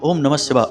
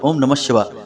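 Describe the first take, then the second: No difference in how they are said.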